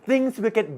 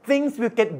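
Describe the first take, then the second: The two takes are said the same way.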